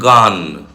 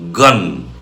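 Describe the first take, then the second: First: The g is released softly. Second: The g is released explosively. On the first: The speaker calls it wrong. "It's not gun" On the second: The speaker calls it right. "it's gun"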